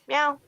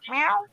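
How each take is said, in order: First: It is said as a friendly greeting. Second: It is said as a questioning sound. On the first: Announces arrival, like saying hey. "it's usually a greeting meow" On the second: Asks what is wrong. "as a meow and a question mark"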